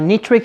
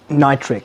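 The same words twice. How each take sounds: First: It is said with a Persian pronunciation. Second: It is said with a standard English pronunciation. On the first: The speaker calls it wrong. "is a Persian pronunciation of" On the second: The speaker calls it right. "the correct pronunciation is"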